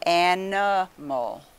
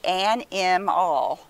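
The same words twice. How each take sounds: First: The second syllable has a reduced schwa vowel. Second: The second syllable has a full short vowel. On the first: The speaker calls it right. "We'll try this second syllable schwa" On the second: The speaker calls it wrong. "So it should say animal. Never heard of an animal"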